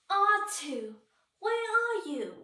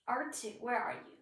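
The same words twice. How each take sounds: First: High, loud emotional robot cry; high-pitched, overwrought robot voice; emotional C-3PO. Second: Said in the usual way. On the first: Acted. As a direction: call out like a fretful, emotional droid. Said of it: "C three P O is very emotional".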